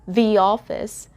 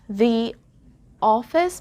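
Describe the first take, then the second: First: A y sound links the into office. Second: No y sound is heard before office. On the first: "we inserted the Y sound there between the and O" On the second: "The office becomes"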